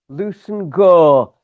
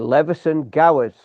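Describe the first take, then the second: First: The name is said shortened, as Lewson Gore. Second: The name is said fully, following its spelling.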